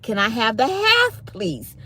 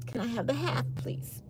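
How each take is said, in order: First: Said in the usual way. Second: Soft, tiny pleading ask; small pleading voice. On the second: Retold or imitated. Begging the waiter for the half portion, tiny soft plea.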